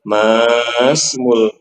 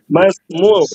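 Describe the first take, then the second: First: The first vowel is drawn out long. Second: The first vowel is short. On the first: The speaker calls it wrong. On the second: The speaker calls it right. "Jangan dibaca panjang"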